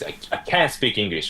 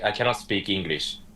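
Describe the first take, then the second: First: It is said expressively, English style. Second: It is said flat, Japanese style.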